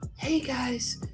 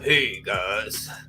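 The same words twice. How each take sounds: First: A bright, overly polite customer-service voice is used. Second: An artificially lowered, deeper voice is used. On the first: "having like a customer service voice" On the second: "I tried to make my voice sound deeper"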